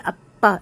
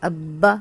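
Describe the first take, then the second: First: The lips press hard, giving a p sound. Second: The lips close gently, giving a b sound. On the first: The speaker calls it wrong. "पे वाला साउंड बन जाएगा" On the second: The speaker calls it right. "इस तरह आवाज़ रखनी है"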